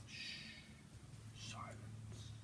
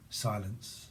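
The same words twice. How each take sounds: First: Breathy whispered single word. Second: Hushed. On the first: Streamer whispering to the viewers for silence, whispered. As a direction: hush them with a whisper. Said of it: "Let me whisper". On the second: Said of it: "Silent whisper". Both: Shown as a demonstration.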